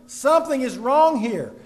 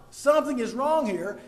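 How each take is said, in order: First: Loud, insistent warning; louder, punching the word wrong; shouting a warning. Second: Said in the usual way. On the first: Acted. The preacher voicing chaos in churches, a loud insistent warning. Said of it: "It is shouting". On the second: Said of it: "and that shouted".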